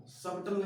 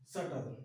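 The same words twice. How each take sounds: First: सबटल with a clear b before the t; B sounded in सबटल. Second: सटल with no b sound, lower; silent B in सटल. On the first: Teacher showing students the wrong reading, b pronounced. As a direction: say सबटल wrongly, voicing the silent b. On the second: Teacher correcting the reading for students, b left silent. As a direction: say सटल, going straight to t. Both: Shown as a demonstration. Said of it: "सबटल नहीं".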